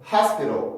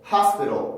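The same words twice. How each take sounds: No difference in how they are said.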